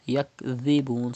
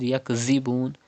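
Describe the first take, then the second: First: The middle consonant is a soft th. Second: The middle consonant is a hissing z. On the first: The speaker calls it right. "softly without whistle" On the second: The speaker calls it wrong. "Do not read yakzibun"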